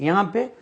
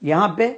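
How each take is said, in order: Both takes have the same delivery.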